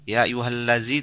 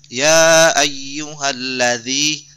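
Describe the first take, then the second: First: The consonant sounds like a buzzing z. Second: The consonant is a soft dh between tongue and teeth. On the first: The speaker calls it wrong. "macam huruf ke Z sedikit ya huruf zai" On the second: The speaker calls it right. "di ujung lidah ya di ujung lidah dengan ujung gigi atasnya"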